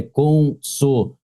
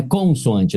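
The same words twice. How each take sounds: First: "consoan-" slowly split, con-so-AN; "consoan-" drawn out to show the stressed syllable; stressed syllable demo. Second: "consoante" run together, stress misplaced; "consoante" at normal speed, without the held "an"; wrong stress demo. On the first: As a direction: land on a long nasal "an" in "consoan-". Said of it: "a sílaba tônica tá aqui". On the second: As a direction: toss off "consoante" as the rejected reading. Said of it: "não é consoante". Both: Shown as a demonstration.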